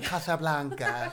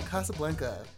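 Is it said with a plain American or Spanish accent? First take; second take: Spanish; American. First: It is said in a put-on Spanish accent. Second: It is said in a plain American accent.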